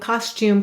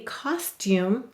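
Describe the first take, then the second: First: Said quickly with the t turning into ch. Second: Said slowly with a clear t sound. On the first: "you say it carefully but faster and faster" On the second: "if you say this very carefully"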